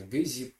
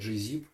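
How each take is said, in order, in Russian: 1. Слово начинается с твёрдого звука «г». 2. Слово начинается с названия буквы «джи». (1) "по-русски, если говорить, говорят обычно GZIP" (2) "в американском сегменте YouTube ... там обычно говорят GZIP"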